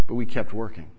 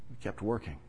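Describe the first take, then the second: First: Said in the usual way. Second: Much softer, almost to himself; soft echo. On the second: Acted. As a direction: let the repeat fade to a murmur. Repeats line, echo much softer.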